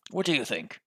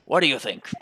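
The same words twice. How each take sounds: First: More contained gruff British take; gruff British question at ordinary volume. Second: Loud, gruff British challenge. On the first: Player retries the inspector's voice, restrained gruff British. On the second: Player testing the inspector's voice, loud gruff British. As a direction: belt it out in a gruff British accent. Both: Shown as a demonstration. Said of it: "Gruff, gruff British voice".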